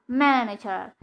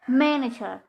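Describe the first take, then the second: No difference in how they are said.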